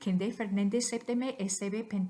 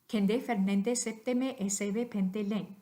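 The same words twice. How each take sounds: First: The words are said very quickly. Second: The words are said fairly quickly. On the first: "even more quickly" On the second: "pretty quickly"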